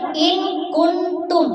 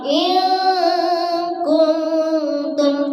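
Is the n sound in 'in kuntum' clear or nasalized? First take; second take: clear; nasalized. First: The n is pronounced clearly without nasal holding. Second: The n is nasalized and held for two beats. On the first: The speaker calls it wrong. "kita baca in kuntum, ya, berbeda" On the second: The speaker calls it right. "dia dengungkan karena memang dengung dua ketukan, dua harokat"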